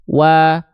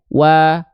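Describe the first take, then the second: Both takes have the same delivery.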